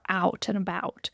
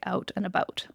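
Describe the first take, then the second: First: It is said with an American accent. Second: It is said with a Canadian accent. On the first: "The American accent is a little bit more" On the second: "Canadians tend to say"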